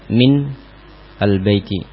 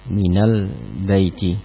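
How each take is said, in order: First: The n of min carries no following vowel. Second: The n of min is followed by 'a'. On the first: The speaker calls it wrong. "bertemu dengan dua sukun yang kemudian sulit untuk dibaca" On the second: The speaker calls it right. "nunnya dirubah harokatnya menjadi fathah"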